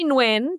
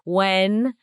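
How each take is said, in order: First: It starts with a slight N sound. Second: It sounds like 'wen', rhyming with 'ten'. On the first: This is how the name's owner says it. "So I say Nguyen" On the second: This is another common American rendering. "Some people say Wen"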